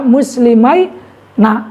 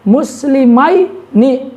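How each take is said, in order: First: The final syllable ends with an 'ah' vowel. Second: The final syllable ends with an 'ee' vowel. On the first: The speaker calls it wrong. "ndak ya" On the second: The speaker calls it right. "diimbangi dengan beratnya harokat kas kasrah"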